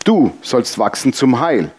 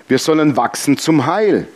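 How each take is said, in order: First: Slow, with DU set apart and stressed. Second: Said in the usual way. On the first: Shown as a demonstration. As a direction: address the listener directly, landing hard on "Du". Richtet denselben Satz ans Publikum. (langsam, Betonung auf „Du“)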